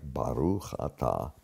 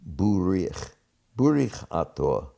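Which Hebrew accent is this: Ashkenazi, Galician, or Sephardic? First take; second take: Sephardic; Galician. First: It is said in a Sephardic Hebrew accent. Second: It is said in a regional accent with shifted vowels. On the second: "it is a particular accent ... the A became U, and the U became I"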